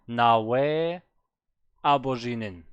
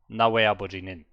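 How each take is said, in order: First: It breaks after the opening words, voice rising. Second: It flows smoothly with no break. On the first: The speaker is still thinking of the next word. The speaker calls it wrong. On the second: The speaker already knows the next word. The speaker calls it right.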